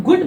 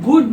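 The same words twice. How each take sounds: First: गुड with a short, quick "u"; short U vowel. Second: गुड stretched into "gooood"; long OO vowel. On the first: Teacher showing students the usual word, short U. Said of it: "आप गुड बोलते हैं". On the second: Teacher showing what one doesn't say, long OO. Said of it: "आप गुड नहीं बोलते हैं". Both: Shown as a demonstration.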